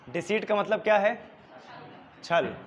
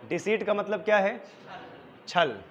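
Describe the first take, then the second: No difference in how they are said.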